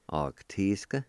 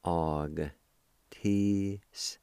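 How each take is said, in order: First: Said in the usual way. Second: "Og, tisk" in slow, separated syllables; syllable-by-syllable pronunciation. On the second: Shown as a demonstration. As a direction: sound out "Og, tisk" for a learner, holding each part. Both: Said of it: "pronounce the G sound with the A like this".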